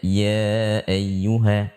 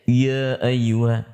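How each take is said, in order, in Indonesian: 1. Suku kata pertama diucapkan ringan tanpa tekanan. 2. Suku kata pertama ditekan dengan penekanan kuat. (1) "Cukup kita baca ya ayyuha" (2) "tidak ditekan seperti kita mengucapkan iya"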